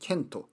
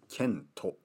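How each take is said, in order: First: The name ends in a bare t sound. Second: The name ends with an added o vowel.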